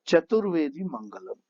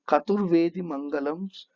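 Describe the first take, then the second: First: The first word begins with a ch sound. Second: The first word begins with a k sound.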